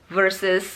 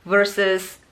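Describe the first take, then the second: The two takes are said the same way.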